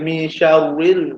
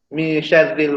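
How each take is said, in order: First: The r is pronounced heavy and thick. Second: The r is pronounced light and thin. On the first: The speaker calls it wrong. "Tak boleh baca mi syarril" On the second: The speaker calls it right. "tu baca baca dengan nipis lah"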